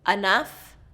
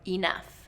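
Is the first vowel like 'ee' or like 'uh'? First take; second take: uh; ee. First: The first vowel sounds like 'uh'. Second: The first vowel sounds like 'ee'. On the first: "that uh or e can be either one" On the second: "that uh or e can be either one"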